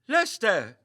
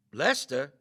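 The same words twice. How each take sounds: First: Higher, louder alarmed cry of the name; alarmed shout. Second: A worried, questioning call of the name; uneasy question. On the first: Meagle cries out as Lester slumps over, alarmed shout. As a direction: call out to him in alarm. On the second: Meagle calls to Lester who does not move, uneasy question. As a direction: ask for him, afraid of the answer. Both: A narrator's reading.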